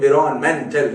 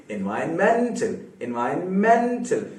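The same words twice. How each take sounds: First: "environmental" said louder, with the stress put in the wrong place; the incorrect "environmental", said louder. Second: "environmental" with the main stress on "मेन", said slowly; the correct "environmental", stress on "मेन". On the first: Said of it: "environmental नहीं". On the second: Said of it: "सबसे ज्यादा सुनाई देने वाला मेन के पास". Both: Shown as a demonstration.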